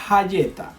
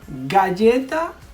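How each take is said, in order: First: The word begins with a y sound. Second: The word begins with a hard g sound. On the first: The speaker calls it wrong. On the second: The speaker calls it right.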